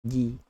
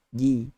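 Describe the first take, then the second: The two takes are said the same way.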